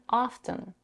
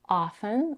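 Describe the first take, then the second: First: The T sound is pronounced. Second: The T sound is left out. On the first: "often with a T" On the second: "Often without a T"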